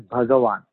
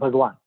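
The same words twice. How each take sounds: First: The word is said with a Sanskrit-style pronunciation. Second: The word is said with a Hindi-style pronunciation. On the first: The speaker calls it right. "It is bhagavan" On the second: The speaker calls it wrong. "Not bhagavan. Hindi, please be careful"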